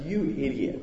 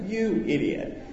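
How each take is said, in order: First: Muttered to self. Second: Laughing repeat. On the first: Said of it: "and I said". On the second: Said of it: "Those are my exact words". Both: Retold or imitated.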